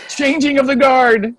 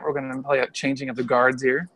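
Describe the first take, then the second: First: Loud, high mock proclamation; announcing. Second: Said in the usual way. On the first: Shown as a demonstration. Father announcing the handover to mom, loud mock fanfare. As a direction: call it out like a herald.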